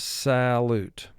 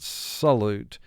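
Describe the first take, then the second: First: The first vowel is a clear short a. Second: The first vowel is weak and reduced. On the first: This form is used to help with spelling. "but for spelling purposes, salute. So we give the A a short sound here" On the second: This is the everyday spoken form. "In conversation, we would pronounce it salute"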